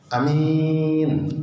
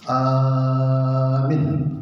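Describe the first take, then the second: First: Only the second vowel is held long. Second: Only the first vowel is held long. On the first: "Ada juga yang baca a-nya pendek, min-nya panjang" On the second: "Ada yang membaca a-nya yang panjang"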